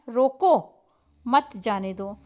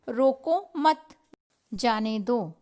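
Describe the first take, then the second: First: The pause comes after the word 'roko'. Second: The pause comes after the word 'mat'.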